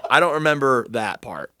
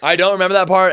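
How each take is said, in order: First: Said in the usual way. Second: Louder, higher, stress on "that part"; insistent emphasis. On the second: Real, not acted. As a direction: insist "I don't remember that part" hard. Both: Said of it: "I really fucking don't remember".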